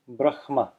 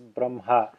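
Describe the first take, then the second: First: The h sound comes before the m. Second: The h sound comes after the m. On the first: It follows the written form. "The H comes before the M" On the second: It follows common traditional usage. "to say the, the H after the M"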